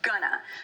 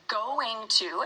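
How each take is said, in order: First: The words merge into one short word. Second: Both words are said fully and separately. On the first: This is the most casual, fastest form. "going to gets shortened into gonna" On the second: This is the formal form. "We would formally say going to"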